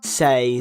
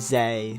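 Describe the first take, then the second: First: It starts with a hissing S sound. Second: It starts with a buzzing Z sound. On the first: The speaker calls it right. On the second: The speaker calls it wrong. "I don't mean to say zay"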